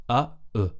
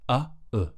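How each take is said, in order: No difference in how they are said.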